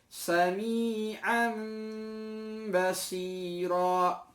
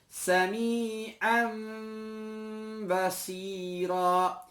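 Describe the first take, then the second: No difference in how they are said.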